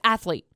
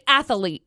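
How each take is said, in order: First: No extra vowel comes between 'ath' and 'lete'. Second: An extra vowel sound comes between 'ath' and 'lete'. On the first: The speaker calls it right. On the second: The speaker calls it wrong.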